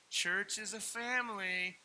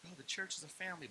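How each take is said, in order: First: Slow, high, stretched-out quote; drawn-out slogan. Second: Quick, slightly raised aside; quick caveat. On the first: Pastor quoting the church-as-family line, drawn out. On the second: Pastor voicing his caveat on church, quick and offhand. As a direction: toss it off quickly. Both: Retold or imitated.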